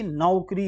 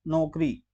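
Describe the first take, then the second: First: नौकरी as "nau-kri"; au diphthong. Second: नौकरी as "nokri", pure o; wrong o vowel. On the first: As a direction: glide from a to u in नौकरी. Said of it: "जबकि नौकरी होता है". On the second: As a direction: say नौकरी with no glide in the first vowel. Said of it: "ये ओ की मात्रा है". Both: Shown as a demonstration.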